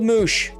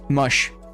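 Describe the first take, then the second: First: The vowel is a long 'oo' sound. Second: The vowel is a short 'uh' sound.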